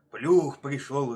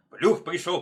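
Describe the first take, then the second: First: Loud, slow, drawn-out roar; heavy bear bellow. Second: Loud, raised, quick cry; higher, punchy warning shout; wolf's warning. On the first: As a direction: bellow it with long vowels. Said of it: "ревёт медведь". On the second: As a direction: call the alarm out sharply. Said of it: "повторяет волк". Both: A narrator's reading.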